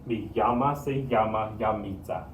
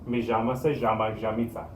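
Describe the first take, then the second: First: The double L is said as a y sound. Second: The double L is said as a j sound. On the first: "the double L makes the y sound" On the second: "they might say this as j or sh"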